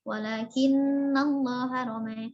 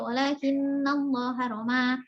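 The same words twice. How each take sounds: First: The final vowel is tilted slightly toward e. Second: The final vowel is a fully open a. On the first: "dan bil taklil" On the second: "Warash bil fathah"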